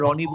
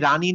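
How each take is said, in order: First: The vowel after the r is rounded. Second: The vowel after the r is open. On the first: The speaker calls it right. "এই সেম জিনিস র এর ক্ষেত্রে আমি রানী না বলে রনি বলছি" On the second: The speaker calls it wrong. "রানী না বলে"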